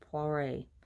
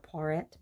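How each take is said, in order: First: The name is said with a French pronunciation. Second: The name is said with an English pronunciation. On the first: This is how the designer himself says it. "I believe is how he pronounces it in French" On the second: This is how English speakers would say it. "We would say Poiret"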